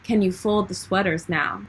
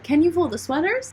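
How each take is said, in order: First: It sounds like a command, falling at the end. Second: It sounds like a question, rising at the end.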